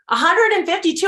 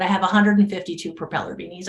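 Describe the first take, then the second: First: High, loud disbelief; astonished echo. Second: Said in the usual way. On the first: Retold or imitated. Neighbor stunned by the beanie count, astonished echo. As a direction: repeat the number, pitched up in amazement.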